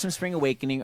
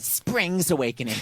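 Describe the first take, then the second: First: Said in the usual way. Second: Slow "Spring's Awakening" with an added s; mother's misnaming. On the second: Retold or imitated. Mimicking mom's title slip, slow "Spring's". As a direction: stretch out "Spring's" as mom says it. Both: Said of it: "or as my mother calls it".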